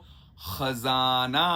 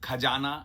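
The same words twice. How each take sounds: First: It begins with a rasping fricative and z sound. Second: It begins with an aspirated stop and j sound. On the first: The speaker calls it right. "ख और जा में भी नुक्ता है, तो खजाना" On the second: The speaker calls it wrong. "खजाना गलत"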